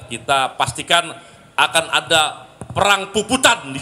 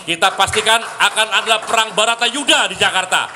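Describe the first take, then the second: First: Said in the usual way. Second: Loud, high rally cry; rousing shout. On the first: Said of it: "rally build-up before repeating louder". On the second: Acted. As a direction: fire up the crowd. Rally climax, repeated line much louder.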